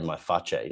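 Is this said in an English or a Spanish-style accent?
Spanish. It is said with a put-on Spanish-style accent.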